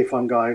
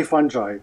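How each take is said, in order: First: "fungi" said with a hard g, as FUN-guy; "fungi" with g as in go, ending in eye; hard-g pronunciation. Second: "fungi" said with a soft g, as FUN-jai; "fungi" with a j in the middle; soft-g pronunciation. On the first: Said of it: "a lot of people say fungi". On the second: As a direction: say "fungi" to rhyme with "fun guy" but with a j sound. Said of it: "I say fungi". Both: Shown as a demonstration.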